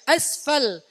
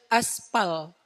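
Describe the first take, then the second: First: The middle consonant is an f sound. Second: The middle consonant is a p sound. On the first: This is the original Arabic word. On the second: This is the Indonesian borrowed form.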